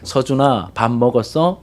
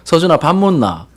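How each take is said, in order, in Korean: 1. 표준 서울말로 말해요. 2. 시골 지역 사투리로 말해요. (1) "표준말이잖아" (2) "사투리 쓰셨겠죠"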